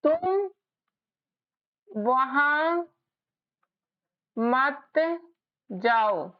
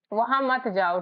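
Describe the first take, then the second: First: तुम वहां मत जाओ spoken word by word with long pauses; spaced out like dictation for spelling; slow dictation. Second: Said in the usual way. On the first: Shown as a demonstration. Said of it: "जैसे मैं यहाँ पर लिख रही हूँ". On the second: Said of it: "तो कैसे बोलोगे".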